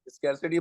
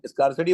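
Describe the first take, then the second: First: स्कैरसिटी with "skair" up front; "skair" variant. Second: स्कार्सिटी with an open "ah"; "skar" variant. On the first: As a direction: begin स्कैरसिटी like "scare". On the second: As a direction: begin स्कार्सिटी like "scar". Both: Shown as a demonstration. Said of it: "spelling तो same है".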